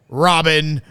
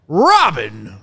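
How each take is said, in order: First: The pitch stays level on the name. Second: The pitch lifts up on the name. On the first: The speaker calls it right. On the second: The speaker calls it wrong.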